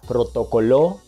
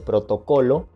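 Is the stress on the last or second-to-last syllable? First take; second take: last; second-to-last. First: The stress is on the last syllable. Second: The stress is on the second-to-last syllable. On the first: "pronuncia protocoló" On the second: "en lugar de protocolo"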